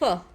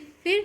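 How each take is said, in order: First: The vowel is central, like in 'fur'. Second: The vowel is short, like in 'fit'. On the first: The speaker calls it right. "How we will pronounce it?" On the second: The speaker calls it wrong. "आप इसे फिर नहीं बोलोगे"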